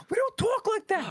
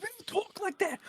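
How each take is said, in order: First: Much higher and louder, yelled "We don't talk like that"; New York lady yelling at the guy, hammed-up shout. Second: Much higher, squawky put-on "We don't talk like that"; New York lady scolding him, mock high voice. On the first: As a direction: blast the repeated line as a mock shout. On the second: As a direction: imitate the scolding lady from the TikTok. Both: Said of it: "she's like".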